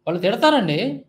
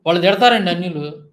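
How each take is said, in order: First: తిడతారండి mocked with a rising, sing-song end; a mocking echo of John Babu's excuse; mocking imitation. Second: Said in the usual way. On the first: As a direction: mimic his shrug, ending తిడతారండి on a rise. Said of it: "ఏదో licence ఇచ్చేసినట్టు మాట్లాడుతున్నాడు". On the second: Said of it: "ఈయన చెప్పటం ఎలాగుందో చూడు".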